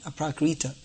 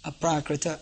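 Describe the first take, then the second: First: The final vowel is long. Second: The final vowel is short. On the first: The speaker calls it wrong. "not aprakrita" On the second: The speaker calls it right. "short a at the end, so it becomes aprakrita"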